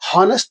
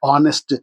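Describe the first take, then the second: First: The word starts with an audible h sound. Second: The word starts with a vowel sound. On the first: The speaker calls it wrong. "హానెస్ట్ అనకూడదమ్మా" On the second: The speaker calls it right. "ఏమనాలి మరి?"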